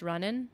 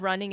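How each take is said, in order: First: "running" said as runnin', ending in a plain N; dropped G. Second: Said in the usual way. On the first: Shown as a demonstration. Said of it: "instead of running, it's running". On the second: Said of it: "You drop the G's".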